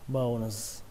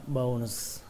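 Both takes have the same delivery.

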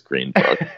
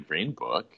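First: It is said in a sheepish, apologetic tone. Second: It is said in an eager, enthusiastic tone. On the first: The choice is admitted reluctantly, expecting disapproval. "they wouldn't say it like, honestly, I know you're going to kill me" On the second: The choice is obvious and proudly held. "They would say Green Book enthusiastically"

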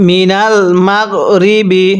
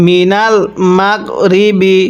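No difference in how they are said.

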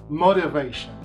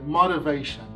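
First: The word is said in an American accent. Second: The same.

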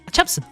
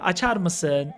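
First: The question is said quickly. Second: The question is said slowly. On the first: The child hopes to rush the father into agreeing. "Böyle hızlı söylüyor" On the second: This is how the child normally asks. "Normalde yavaş konuşur"

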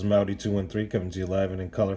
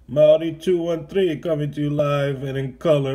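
First: It is spoken in the speaker's normal accent. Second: It is spoken in an exaggerated New York accent.

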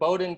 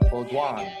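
First: The name is said with an American pronunciation. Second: The name is said with a French pronunciation. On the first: This is how the local community says it. "that's not how we do it" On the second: This is the original pronunciation of the name. "it's actually pronounced Baudouin"

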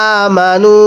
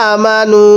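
Both takes have the same delivery.

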